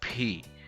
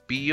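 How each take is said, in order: First: The P is released with a puff of air. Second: The P is released without a puff of air. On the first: The speaker calls it right. "we say P, right? So that that short puff of air at the end of the sound is the aspiration" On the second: The speaker calls it wrong. "we don't say P only"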